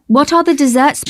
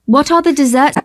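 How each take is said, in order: Both takes have the same delivery.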